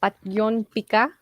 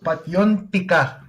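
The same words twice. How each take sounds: First: "Patyon pika" repeated slowly, rising on "pika"; "Patyon pika" copied with a questioning rise; learner repeating. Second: "Patyon pika" said slowly, stress on PAT-yon; slow Bisaya demo. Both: Shown as a demonstration. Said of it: "teach me".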